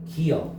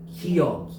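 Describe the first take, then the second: First: The second syllable is a plain 'eo' sound. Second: The second syllable has a 'y' glide, 'yeo'. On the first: "어 발음도 나고" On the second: "여 발음도 난다"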